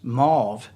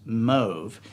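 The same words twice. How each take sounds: First: The vowel is not a long O. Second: The vowel is a long O. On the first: The speaker calls it wrong. "Mauve is not, that's not a color" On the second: The speaker calls it right. "with a long O"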